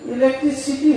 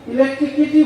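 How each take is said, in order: First: The word is said with an s sound: electricity. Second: The word is said with a k sound: electrikity. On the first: The speaker calls it right. "ইলেকট্রিসিটি হওয়ার কথা" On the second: The speaker calls it wrong. "ইলেকট্রিসিটি না বলে ইলেকট্রিকিটি বলছে"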